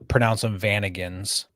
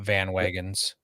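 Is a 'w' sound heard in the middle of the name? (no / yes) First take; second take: no; yes. First: The name is said without a 'w' sound. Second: The name is said with a 'w' sound. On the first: The speaker calls it right. "I usually, uh, pronounce them Vanagons" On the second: The speaker calls it wrong. "not Van Wagons"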